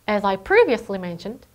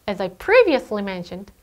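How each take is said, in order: The two takes are said the same way.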